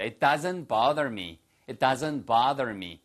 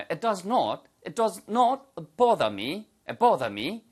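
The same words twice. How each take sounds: First: Bother said the American way, bah-der with a flapped t-sound; slow American model of bother; slow American-accent demo of bother; American pronunciation. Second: Bother said the British way with a rounded o, boh-da; slow British model, round the o in bother; British-accent demo with does not spelled out; British pronunciation. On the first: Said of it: "미국식 발음이고요". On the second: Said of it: "발음하시면 영국식 발음이 되겠죠". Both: Shown as a demonstration.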